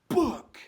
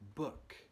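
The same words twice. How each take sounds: First: It is said very loudly. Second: It is said at normal, soft volume.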